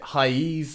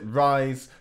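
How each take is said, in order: First: The word has a Portuguese-style ending, like 'ra-eez'. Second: The word sounds like English 'rise'. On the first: "I think that's the proper Portuguese pronunciation" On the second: "Other people pronounce it rise"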